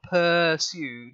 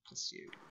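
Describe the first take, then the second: First: The stress is on the first syllable. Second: The stress is on the second syllable. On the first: The speaker calls it wrong. "so it's not pursued because it's not like a per um, pound" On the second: The speaker calls it right. "stress is on the second syllable there"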